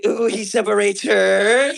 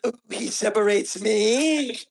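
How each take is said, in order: First: Slow teasing swoon, rising at the end; hammed-up sigh over the book; lightly mocking swoon; mock swooning reader. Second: Breathy, slow mock sigh over a book; a lightly hammed-up swoon; mock swooning reader. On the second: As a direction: swoon at the line like she's hooked. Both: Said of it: "how could she be like".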